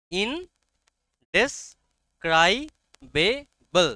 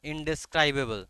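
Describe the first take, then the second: First: "ইনডেসক্রাইবেবল" broken into slow, separate syllables, in-des-krai-be-bl. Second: Said in the usual way. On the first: Shown as a demonstration. Teacher showing the class the pronunciation, "ইনডেসক্রাইবেবল" slowly syllable by syllable. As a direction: sound out "ইনডেসক্রাইবেবল" very slowly, pausing after each syllable, pitch raised. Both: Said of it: "উচ্চারণটা কি?".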